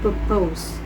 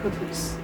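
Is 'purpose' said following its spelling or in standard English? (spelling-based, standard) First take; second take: spelling-based; standard. First: It is sounded out following its spelling. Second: It is said with standard English sounds. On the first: The speaker calls it wrong. "mispronunciation such as" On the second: The speaker calls it right. "for the words"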